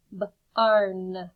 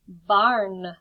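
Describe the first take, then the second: First: B-arn split into b and arn; segmented barn. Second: Said in the usual way. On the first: Shown as a demonstration. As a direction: stretch b-arn apart into its sounds. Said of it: "teacher segmenting sounds". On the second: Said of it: "teacher blends the word".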